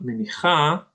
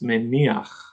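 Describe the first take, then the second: First: The word ends with an extra 'a' vowel. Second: An 'a' vowel comes before the final 'ch'. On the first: The speaker calls it wrong. "it's not menicha" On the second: The speaker calls it right. "It's meniach"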